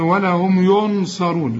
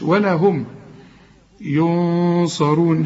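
First: The n is pronounced clearly before the s. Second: The n is hidden and nasalized before the s. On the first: The speaker calls it wrong. "اوعى تقول" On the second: The speaker calls it right. "هنا في غنة لكن هنفخمها علشان الصاد مفخمة"

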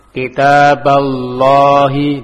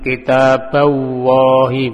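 First: The consonant is a thick, heavy L sound. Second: The consonant is a W sound instead of L. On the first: The speaker calls it right. "ditebalkan lamnya" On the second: The speaker calls it wrong. "Bukan kitabawahi, bukan"

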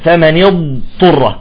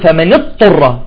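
First: The ḍād is held long before the ṭā. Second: The ḍād is cut short, going straight to ṭā. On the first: The speaker calls it right. "نعطي الاستطالة ثم نخرج الطاء" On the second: The speaker calls it wrong. "بفوت مباشرة على الطاء، وهذا خطأ"

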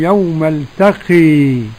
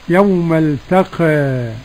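First: The final vowel is strongly raised toward e. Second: The final vowel is slightly raised toward e. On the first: "وحمزة والكسائي وخلف العاشر بالإمالة" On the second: "والتقليل"

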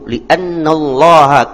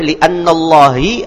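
First: The final vowel is 'a'. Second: The final vowel is 'i'. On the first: The speaker calls it right. "pakai ha" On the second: The speaker calls it wrong. "tidak boleh li'annallahi"

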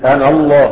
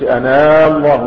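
First: The final vowel of 'ana' is short. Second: The final vowel of 'ana' is lengthened. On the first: The speaker calls it right. "تحذف ألفاظ في الوصل نطقا وليس كتابة" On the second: The speaker calls it wrong. "ما بنقولش أنا الله، مش كده؟ ما بنمدش مد طبيعي"

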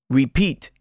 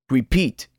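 No difference in how they are said.

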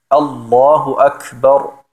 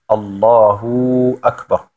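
First: No sound is lengthened or doubled. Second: The u sound is held too long. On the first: The speaker calls it right. "richtigerweise heißt es" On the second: The speaker calls it wrong. "Manche Leute machen zum Beispiel das U zu lang"

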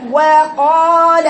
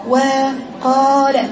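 First: The waw is strong and fully voiced. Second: The waw is said with escaping breath. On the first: The speaker calls it right. "هاتي الواو قوية فيها جهر" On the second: The speaker calls it wrong. "حولها لصفة ضعف فيه نفس"

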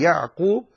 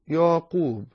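First: The ain is pronounced fully from the throat. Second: The ain is weakened, sounding like a plain vowel. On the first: The speaker calls it right. "بهذا الطريق" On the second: The speaker calls it wrong. "فلم تنطق العين ... ستقول ياقوب"

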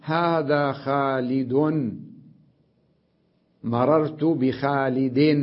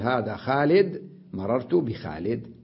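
First: The nouns end with a vowel plus n. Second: The nouns end on a bare d sound. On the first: "إذا وقفت على منون" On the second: "أقف على الدال بالسكون"

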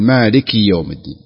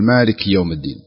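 First: The short i vowel after the k is clearly pronounced. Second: The short i vowel after the k is dropped. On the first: The speaker calls it right. "الصحيح أن يقول" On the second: The speaker calls it wrong. "البعض لا ينطق الكسرة"

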